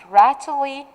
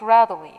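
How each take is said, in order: First: It is said slowly, with every sound clear. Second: It is said in a relaxed American accent. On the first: "I'm gonna focus and I'll pronounce it rattly" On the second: "in the American accent, we have to say it rattly"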